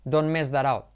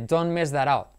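First: The T of don't disappears in connected speech. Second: The T of don't disappears in connected speech.

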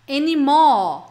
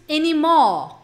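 First: The r is dropped and the o is lengthened. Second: The same.

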